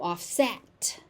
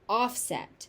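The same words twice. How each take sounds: First: The stress is on the second syllable. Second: The stress is on the first syllable. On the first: It is used as a verb. "If it is a verb, it is to offset" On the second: It is used as a noun. "if something is a noun, it is offset"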